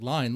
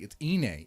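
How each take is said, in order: First: The word starts with an L sound. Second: The word starts with a vowel sound. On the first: The speaker calls it wrong. "I was one of them for a g- good while. I was like" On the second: The speaker calls it right. "It's like, it's Ine"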